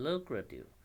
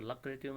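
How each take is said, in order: First: Lucrative as LOO-kra-tiv, high first syllable; corrected pronunciation. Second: Lucrative as LUCK-ra-tiv, short first vowel; wrong pronunciation. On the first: Teacher modelling for students, lucrative with a high, long LOO. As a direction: hit a long rounded first vowel in lucrative. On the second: Teacher showing students what not to read, lucrative as LUCK-ra-tiv. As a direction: begin lucrative like 'luck'. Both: Shown as a demonstration. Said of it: "इसको lucrative नहीं पढ़िए".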